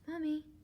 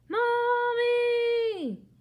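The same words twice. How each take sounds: First: It is said very quietly. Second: It is yelled as loud as possible.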